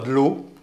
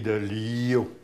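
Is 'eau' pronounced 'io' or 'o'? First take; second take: o; io. First: The word is pronounced 'o'. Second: The word is pronounced 'io'. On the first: This is the standard French form. "on ne dit pas de l'eau" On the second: This is the local patois form. "on dit de l'io"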